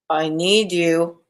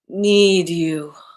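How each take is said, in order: First: It sounds scolding, like someone in trouble. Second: It sounds seductive and full of desire.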